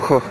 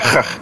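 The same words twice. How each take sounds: First: The opening sound is soft and gentle. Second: The opening sound is harsh and rough. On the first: "se on huomattavasti pehmeämpi" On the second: "eikä huh"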